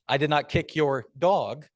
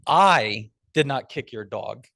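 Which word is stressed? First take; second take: dog; I. First: The stress is on "dog". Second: The stress is on "I".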